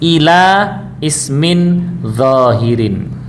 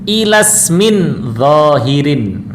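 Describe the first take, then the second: First: The phrase is read ending with a stop. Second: The words are joined smoothly into the next. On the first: The reader stops at the end. "Kalau kita baca berhenti" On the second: The reading continues without stopping. "itu dibaca wasol"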